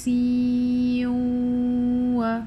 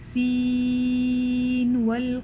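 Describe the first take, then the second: First: The n sound merges into the following w. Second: The n sound is said clearly before w. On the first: The speaker calls it wrong. "You will not merge. You will not say siwa" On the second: The speaker calls it right. "you'll just say this noon clearly"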